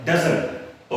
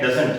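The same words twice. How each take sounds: First: "doesn't" with the final t dropped, ending on n; contracted doesn't. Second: "doesn't" with the full final t sounded; common wrong doesn't. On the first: Teacher showing learners the right form, reduced doesn't. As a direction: swallow the t of "doesn't". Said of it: "ये होता है". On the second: Teacher showing learners the wrong form, fully sounded doesn't. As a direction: say "doesn't" in two full beats, closing on t. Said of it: "लेकिन ये doesn't नहीं है". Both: Shown as a demonstration.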